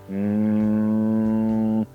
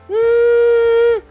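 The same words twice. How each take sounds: First: The hum is low in pitch. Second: The hum is high in pitch. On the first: "abajo del dedo" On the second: "Agudos. se fue arriba del dedo"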